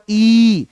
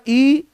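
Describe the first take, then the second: First: ई held for twice the length; long vowel ई, drawn out. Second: ई said as short इ, one quick beat; short vowel ई, no stretch. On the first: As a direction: stretch ई to two beats. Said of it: "आपने बोला ई". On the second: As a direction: clip ई off fast, a single beat. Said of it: "just दो गुना समय". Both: Shown as a demonstration.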